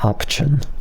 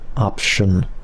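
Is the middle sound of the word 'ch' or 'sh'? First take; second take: ch; sh. First: The middle consonant is a 'ch' sound. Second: The middle consonant is a 'sh' sound. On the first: The speaker calls it wrong. "I pronounced it as like option" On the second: The speaker calls it right. "It's not ch, it's sh"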